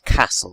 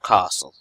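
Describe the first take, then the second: First: The word is said in a plain accent. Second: The word is said in a posh accent. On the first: The speaker calls it right. "it it castle" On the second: The speaker calls it wrong. "not castle, unless you're from a particularly uh, posh region"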